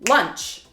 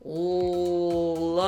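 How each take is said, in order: First: The word is said quickly. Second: The word is said slowly.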